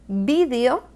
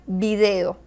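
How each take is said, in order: First: Stressed the way speakers from Spain say it. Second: Stressed the way Latin American speakers say it. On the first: "un español diría" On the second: "un hispanoamericano diría"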